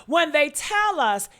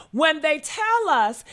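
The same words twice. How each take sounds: The two takes are said the same way.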